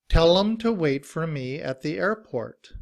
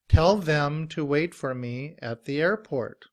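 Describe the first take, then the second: First: The word them is reduced to a short 'em. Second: The word them keeps its full th sound. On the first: "we often drop the T H sound" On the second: "is the T H sound when it's pronounced with the voice"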